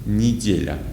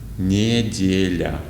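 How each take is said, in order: First: Said at normal speed with a reduced vowel. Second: Said slowly with a full unreduced vowel. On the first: "when we say these words normally, they will sound like this" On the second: "let's read these words slowly and pronounce every E like E"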